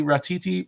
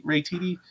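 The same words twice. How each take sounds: First: "Ratiti" with an "ah" in the first syllable, rah-tee-tee; uncertain pronunciation. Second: "Ratiti" with "ray" as the first syllable, ray-tee-tee; softer, questioning try at "Ratiti" as ray-tee-tee; second pronunciation guess. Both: Real, not acted. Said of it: "I'm butchering his name".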